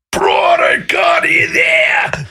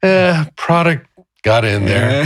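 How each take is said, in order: First: Bellowing at the worker, slow and high; retold angry shout. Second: Slow, calmer version; the anger has melted away; gentle and slow, anger gone; softened. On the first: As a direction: yell it at the guy who messed up. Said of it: "screaming at me". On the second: Retold or imitated. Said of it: "it started to soften".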